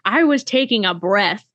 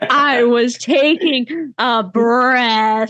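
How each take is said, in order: First: It is said at a normal speed. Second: It is said slowly, drawn out.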